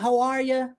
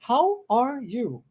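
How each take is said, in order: First: The words run together, ending in a reduced 'ya'. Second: Each word is said carefully, ending in a full 'you'. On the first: The speaker calls it right. "Troca o you pelo, pelo ya" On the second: The speaker calls it wrong. "assim, bonitinho, do jeito que os cursos de inglês ensinam aqui"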